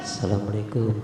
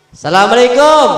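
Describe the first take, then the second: First: "Assalamualaikum" very low and near silent; lowest soft greeting. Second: Assalamualaikum said with a falling tune; falling greeting. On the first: Third greeting to Aisyah, lowest and faintest. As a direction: let "Assalamualaikum" sink to almost nothing. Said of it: "Yang ketiga turun lagi". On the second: Preacher showing the Prophet greeting Aisyah, falling tone. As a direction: let "Assalamualaikum" fall gently at the end. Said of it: "intonasinya turun". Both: Shown as a demonstration.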